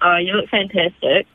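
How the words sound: It is said in a flat monotone.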